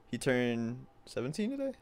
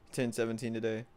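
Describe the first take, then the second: First: TODAY rising as a question; unsure question. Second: TODAY ending as a plain statement; settled statement. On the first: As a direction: ask it, lifting the end on TODAY. Checking a friend's age aloud. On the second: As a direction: confirm it without lifting TODAY. Then confirms the friend's age. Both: Real, not acted.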